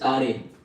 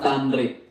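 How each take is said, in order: First: The n sound is left out. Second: The n sound is pronounced. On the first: The speaker calls it right. "That is Tare" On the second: The speaker calls it wrong. "not Tanre"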